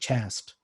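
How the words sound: The vowel sounds like the one in 'last'. "an older North American accent, chaste would actually rhyme with last"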